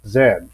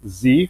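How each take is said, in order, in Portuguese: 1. Ela é pronunciada do jeito britânico, como 'zed'. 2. Ela é pronunciada do jeito americano, como 'zee'. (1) "e no Reino Unido com o som de Z" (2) "nos Estados Unidos a gente lê é, o Z"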